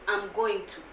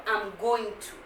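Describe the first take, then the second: First: Each word of "going to" is said fully. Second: Each word of "going to" is said fully.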